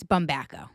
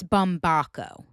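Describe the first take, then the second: First: Bumbaco with a short A, bum-BACK-o; speaker's own pronunciation. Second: Bumbaco with an AH, bum-BAH-ko; outsiders' pronunciation. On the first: Podcaster shows how she says her surname, bum-BACK-o. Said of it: "when I say it". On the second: Podcaster shows how others say the surname, bum-BAH-ko. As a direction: say Bumbaco with a broad open A. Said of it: "if you're saying it as a normal person". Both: Shown as a demonstration.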